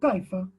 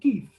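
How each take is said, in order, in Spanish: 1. La palabra se dice completa, con dos sílabas. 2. La palabra se acorta a una sola sílaba. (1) "O decimos kaifa" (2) "después se pronuncia kif"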